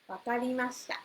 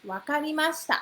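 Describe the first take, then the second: First: Said in the usual way. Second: Wakarimashita said brightly as a model; model pronunciation. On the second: Shown as a demonstration. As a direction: say Wakarimashita clearly for students to copy.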